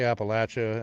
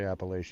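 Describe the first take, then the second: First: It is said the southern way. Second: It is said the northern way.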